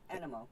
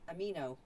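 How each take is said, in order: First: The n sound comes before the m sound. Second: The m sound comes before the n sound. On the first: "but they pronounce it uh, animo" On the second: "I would have said amino, like amino acids"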